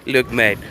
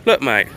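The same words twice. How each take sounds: First: Attempted Russian accent. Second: Said in the usual way. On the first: Playing Russians talking to Western powers, attempted Russian accent. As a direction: have a rough go at a Russian accent. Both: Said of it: "I can't do a Russian accent".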